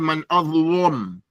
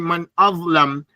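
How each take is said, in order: First: The L sound is heavy and thick. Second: The L sound is light and thin. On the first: This is the Warsh recitation. "they make it mufakham" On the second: This is the usual recitation. "we might say man azlam"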